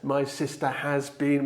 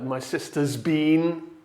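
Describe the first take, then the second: First: The word has is said in full. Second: The word has is contracted to s. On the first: The speaker calls it wrong. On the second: The speaker calls it right.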